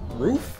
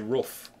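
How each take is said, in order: First: Roof is said in the common everyday way. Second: Roof is said with a different, Swedish-attributed vowel. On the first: "Everyone says it like that" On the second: "That's how Swedish people say it"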